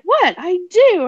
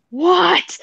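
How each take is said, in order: First: Very high, loud mock protest; short high yelp, then insist; defensive. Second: Long, high, loud mock disbelief; incredulous. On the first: Defending an odd liking to a friend, high-pitched and defensive. Defending his blurted confession. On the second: Friend reacting to a blurted confession, drawn-out and incredulous. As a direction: draw out a high, louder cry of disbelief. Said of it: "looked at me with this look like".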